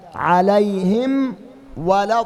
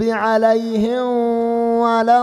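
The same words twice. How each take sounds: First: The m is pronounced fully and clearly before w. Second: The m is softened and hidden into the w. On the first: The speaker calls it right. "الصواب" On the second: The speaker calls it wrong. "إخفاء، هذا خطأ"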